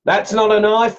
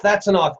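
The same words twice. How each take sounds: First: "That's not a knife" said high and loud, stress on not; movie quote. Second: "that's a knife" high and punched on that's, falling firmly; movie quote. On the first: Quoting the movie line to viewers, dismissive stress. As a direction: scoff it off with weight on not. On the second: Quoting the movie line to viewers, proud stress. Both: Retold or imitated. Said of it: "I was actually gonna steal that from the movie".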